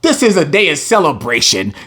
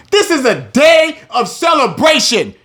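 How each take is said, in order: First: Said in the usual way. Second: Preaching shout. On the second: Real, not acted. Preacher shouting to his listeners that this is a day of celebration. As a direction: belt it out, rising in pitch and volume.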